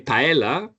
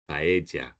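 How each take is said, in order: First: The double L sounds like an L. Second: The double L sounds like a J. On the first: The speaker calls it wrong. "they're going to charge you twenty percent more" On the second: The speaker calls it right. "The double L in Spanish is like a J"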